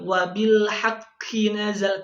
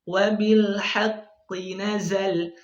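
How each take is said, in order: First: The q sound is pressed hard, nearly a k. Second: The q sound is pressed lightly and stays deep. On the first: The speaker calls it wrong. "terlalu kuat menekan ya, akhirnya qaf ya berubah bahkan menjadi huruf kaf" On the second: The speaker calls it right. "yang benarnya yang kita dapatkan dari guru kami"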